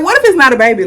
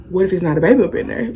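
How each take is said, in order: First: Anxious question. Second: Fast, much softer, half to herself; worried aside. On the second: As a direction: whisper the fear quickly. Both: Retold or imitated. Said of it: "I'm kinda like".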